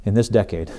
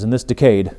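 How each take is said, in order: First: "decade" as DECK-ade, full first vowel; first-syllable stress. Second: "decade" with a reduced first syllable, di-CADE; odd syllable stress. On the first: Speaker correcting the quoted Kennedy line, "decade" stressed as DECK-ade. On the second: Speaker quoting Kennedy on the moon, "decade" stressed as di-CADE. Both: Shown as a demonstration. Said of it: "proper emphasis on the syllable".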